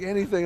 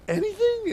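First: Said in the usual way. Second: High-pitched incredulous squeak; acted kid who cannot believe the luck; amazed disbelief. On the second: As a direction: squeal it as a question. Kid amazed at dad's offer.

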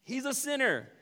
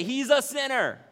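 First: Higher smug sneer; the grumbling crowd, smugly judging Zacchaeus. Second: Higher, louder smug sneer, slow; the grumbling crowd, smugly judging Zacchaeus. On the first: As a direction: dismiss him with a sniff. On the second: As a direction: sneer He's a sinner down your nose. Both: Retold or imitated. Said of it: "the smug religious undertone".

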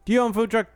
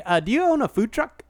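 First: Straight into the question, higher pitch; direct opener. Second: Mock hesitant lead-in to a question; hesitant imitation. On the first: Shown as a demonstration. Host shows co-host how the call should start, direct. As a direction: open confidently, without any hesitation. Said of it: "you should have started, be like". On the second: Host mimics co-host's botched prank call, hesitant. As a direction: stumble into the question with an "uh". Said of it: "You were like".

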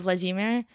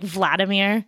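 First: Vladimir stressed on the second syllable, vla-DEE-mir; original Russian stress. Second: Vladimir stressed on the first syllable, VLAD-i-mir; Americanized pronunciation. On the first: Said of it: "instead of Vladimir". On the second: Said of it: "the stress on the first syllable". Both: Shown as a demonstration.

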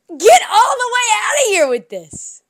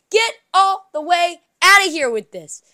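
First: "Get all the way outta here with this" shouted higher and louder, slamming get; outraged shout, louder and higher; shouted dismissal. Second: "Get all the way outta here with this" said loud, falling hard on outta; exasperated loud brush-off; fed-up dismissal. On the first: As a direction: yell it at full force this time. Same line, escalated. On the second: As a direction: wave the whole idea away, loud. Fed-up rant, repeated. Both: Real, not acted.

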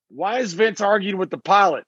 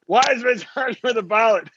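First: Said in the usual way. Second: Laughing through the quote. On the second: Retold or imitated. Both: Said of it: "Brian Gewirtz was there going".

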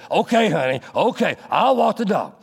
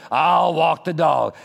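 First: Grudging agreement. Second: Very slow grudging I'll walk the dog; reluctant, drawn out. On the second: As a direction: stretch I'll walk the dog out like a heavy sigh. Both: Pretend. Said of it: "in such a way that I really don't want to".

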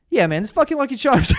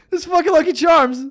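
First: Said in the usual way. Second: Louder, higher, outraged restart; this fucking Lucky Charms shouted in disgust; fired-up rant. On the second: Real, not acted. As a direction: hit it again with real heat. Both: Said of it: "I'm fired up right now".

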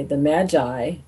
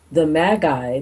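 First: "Magi" said MADGE-eye with a soft g; self-correction, "Magi" with soft g. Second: "Magi" said MAG-eye with a hard g; first try, "Magi" with hard g. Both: Real, not acted.

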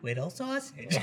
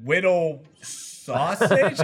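First: Softer echo of "Whittle Sausage"; hushed mimicked echo; imitated reply. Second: "Whittle... Sausage" split by a puzzled pause; halting announcer reading an odd name; hesitant name reading. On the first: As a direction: repeat "Whittle Sausage" quietly, in a put-on voice. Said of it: "and Lindsay goes". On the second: Retold or imitated. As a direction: read out "Whittle", stop, then "Sausage". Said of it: "Jack was reading all the names".

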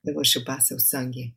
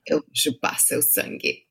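First: Quieter, serious take with no smile; deadpan Portuguese vampire threat; straight-faced vampire line. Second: Smiling vampire line. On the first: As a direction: drop the grin and say it dead straight. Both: Shown as a demonstration. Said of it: "say it without a smile now".

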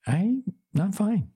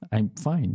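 First: Very high, drawn-out mock fine; high-pitched pretence that all is well; unconvincing insistence. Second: Said in the usual way. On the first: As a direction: squeak out a slow, unconvincing denial. Insists she is fine when not.

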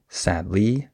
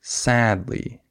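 First: "sadly" wrongly stressed as sad-LY. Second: "sadly" stressed as SAD-ly; long, strong first syllable of "sadly", light "ly". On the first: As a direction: push the second syllable of "sadly", rising on LY. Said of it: "I don't say sadly". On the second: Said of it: "I say sadly". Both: Shown as a demonstration.

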